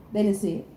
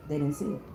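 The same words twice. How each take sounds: First: Said in the usual way. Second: Much softer and lower, almost to herself; quiet aside. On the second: Real, not acted. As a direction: drop it to a knowing murmur. Repeats line, then drops voice.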